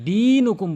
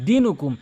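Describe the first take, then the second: First: The first vowel is drawn out and long. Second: The first vowel is short, not drawn out. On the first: The speaker calls it right. "দীনুকুম বলতে হবে" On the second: The speaker calls it wrong. "লাকুম দীনুকুম এটি বলা যাবে না"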